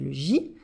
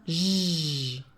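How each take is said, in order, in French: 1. La lettre se dit par son nom complet. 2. On prononce seulement le son de la lettre. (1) "le nom, ça sera ben, le J" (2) "le son, ça sera J"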